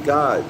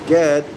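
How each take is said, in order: First: The middle vowel is an O sound. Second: The middle vowel is an E sound. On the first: "G O D" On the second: "G E D"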